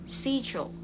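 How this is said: It begins with an 'sh' sound, British style. "Ini kalau British schedule"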